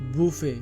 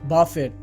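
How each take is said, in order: First: The word ends in a vowel, no 't'. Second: The word ends with a sounded 't'. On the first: The speaker calls it right. "এটি সঠিক উচ্চারণ হবে বুফে" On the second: The speaker calls it wrong. "এটি ভুল উচ্চারণ"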